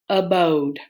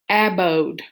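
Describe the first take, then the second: First: The first vowel is a weak schwa sound. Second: The first vowel is a short A sound. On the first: The speaker calls it right. "I'm going to try my schwa" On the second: The speaker calls it wrong. "I'm going to try it with a short one"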